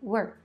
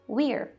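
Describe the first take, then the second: First: The contraction is said in a shorter reduced form. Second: The contraction is said in its full standard form. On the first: "um outro som que os nativos acabam usando mais" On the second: "contração oficial"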